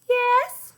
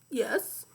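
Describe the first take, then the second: First: It is said in Leslie's voice. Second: It sounds like a donkey with tonsillitis.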